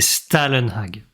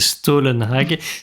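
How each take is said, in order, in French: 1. La première voyelle se prononce comme un 'a'. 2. La première voyelle se prononce comme un 'o'. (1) "Si tu le prononces mal, c'est" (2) "si tu le prononces bien, c'est"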